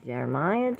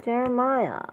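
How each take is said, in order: First: Said in the usual way. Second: Name called out much higher; a high scolding call of the name. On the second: Acted. Calling Jeremiah twice, differently.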